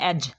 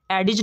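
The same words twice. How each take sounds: First: "एज" in one syllable, no d; silent d. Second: "एडिज" in two syllables, d sounded; wrong pronunciation. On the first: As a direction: drop the d from "एज". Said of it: "इसको पढ़ना है". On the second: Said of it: "नहीं पढ़ना". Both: Shown as a demonstration.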